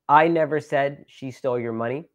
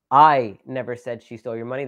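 First: Said in the usual way. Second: Loud, stretched "I", then the rest runs on evenly; stress on I. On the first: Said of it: "depending on which word you emphasize". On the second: Shown as a demonstration. Showing listeners that maybe somebody else said it, stress on "I". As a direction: punch the opening word "I". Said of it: "That means I never said it".

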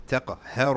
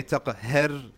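First: "Taqahhar" with a full, heavy r; correct heavy ra. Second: "taqahhar" with a thin, light ra; wrong pronunciation. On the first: Teacher correcting the students' recitation, heavy ra. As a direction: say "Taqahhar" with the ra thickened, mufakham. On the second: Teacher showing students what not to say, mispronounced on purpose. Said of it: "You don't say". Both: Shown as a demonstration.

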